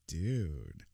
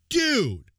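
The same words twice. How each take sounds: First: It sounds flirty. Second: It sounds angry.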